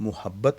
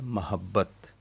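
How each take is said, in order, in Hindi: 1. पहला स्वर 'u' की ध्वनि है। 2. पहला स्वर 'a' की ध्वनि है। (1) "मुहब्बत नहीं पढ़ना" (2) "इसको पढ़ना है महब्बत"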